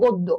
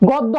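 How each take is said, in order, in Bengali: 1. প্রথম স্বরটি একটি বদ্ধ 'o' ধ্বনি। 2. প্রথম স্বরটি একটি খোলা 'aw' ধ্বনি। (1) "উচ্চারণ কি হবে বলতো" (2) "গদ্য হবে না"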